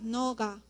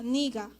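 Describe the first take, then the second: First: The first vowel is an o sound. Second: The first vowel is an i sound. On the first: It is a rare way of saying you. "a veces dicen también noga, pero es casos raros" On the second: It clearly means you. "Aunque se escribe con e, se pronuncia niga"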